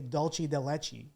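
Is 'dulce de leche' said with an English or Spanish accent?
English. It is said with an English pronunciation. "They're not gonna say"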